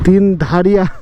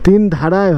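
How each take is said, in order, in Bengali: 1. নামটি 'ia' ধ্বনি দিয়ে শেষ হয়। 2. নামটি 'ay' ধ্বনি দিয়ে শেষ হয়। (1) "আমি তিন ধারিয়া তিন ধারিয়া বলছিলাম।" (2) "T I N D H A R Y"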